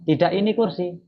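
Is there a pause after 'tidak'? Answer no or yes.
no. The words run together without a pause. The speaker calls it wrong.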